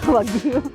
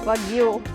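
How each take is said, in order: Both takes have the same delivery.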